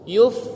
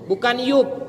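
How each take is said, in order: First: The word ends in a breathy F sound. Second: The word ends in a stopped P sound. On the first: The speaker calls it right. "Alhamas itu nafas yang mengalir" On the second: The speaker calls it wrong. "Yub sidu itu salah"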